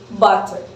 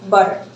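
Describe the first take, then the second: First: The middle consonant is a full T sound. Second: The middle consonant is a quick tongue tap. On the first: This is a British English pronunciation. "pronounce a full T sound" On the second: This is an American pronunciation. "they just do a little flat T tap"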